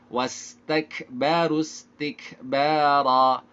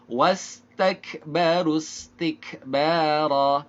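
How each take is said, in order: Both takes have the same delivery.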